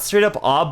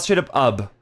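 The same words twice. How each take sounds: First: "ob" with an open ah vowel; sound demo. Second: "ub" with an uh vowel; sound demo. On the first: Streamer showing chat their vowel, sound demo. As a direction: say "ob" with a wide-open AH. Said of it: "it's not straight up ob". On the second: Streamer contrasting vowels for chat, sound demo. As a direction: say "ub" to rhyme with tub. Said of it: "it's not straight up ub". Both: Shown as a demonstration.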